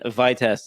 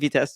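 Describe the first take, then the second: First: It is said with an American pronunciation. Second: It is said like the French word for speed. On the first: "probably how Americans say this" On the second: "sounds like Vitest to me, which is like another way to say speed"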